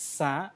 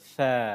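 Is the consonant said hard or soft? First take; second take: hard; soft. First: The first consonant is said hard and sharp. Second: The first consonant is said soft and gentle. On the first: The speaker calls it wrong. "শক্ত করে বললে হবে না, ভুল হবে" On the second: The speaker calls it right. "সা নরম করে"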